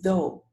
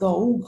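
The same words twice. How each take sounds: First: The word ends on the vowel, no extra sound. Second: The silent final letters are sounded after the vowel. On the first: The speaker calls it right. "You say though" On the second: The speaker calls it wrong. "not though"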